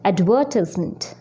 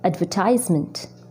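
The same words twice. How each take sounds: First: It is said with a British accent. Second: It is said with an American accent. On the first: "जो मैं पहले word बोलूँगी वो मैं UK accent में बोलूँगी" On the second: "जो मैं उसके बाद बोलूँगी वो यूएस में बोलूँगी"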